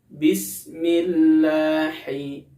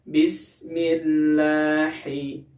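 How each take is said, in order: Both takes have the same delivery.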